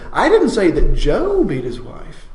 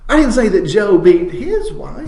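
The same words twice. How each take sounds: First: The word "Joe" carries the main stress. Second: The word "his" carries the main stress. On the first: It was someone other than that man. "it wasn't Joe at all" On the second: It was someone else's wife. "it was his neighbor's wife that he knocked around"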